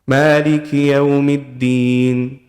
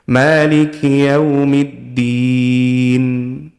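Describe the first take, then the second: First: The final n sound is barely audible. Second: The final n sound is clearly held. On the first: The speaker calls it wrong. "You didn't even hear the noon" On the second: The speaker calls it right. "I'm holding on to the noon at the end"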